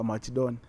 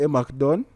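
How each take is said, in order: First: The name begins with Mach, the C said with H. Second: The name begins with a plain hard Mac sound. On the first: This is how the name is said in the Dinka dialect. "the streets have it that is a Machdon" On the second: This is how the name is said in the West. "from my perspective, is a McDon"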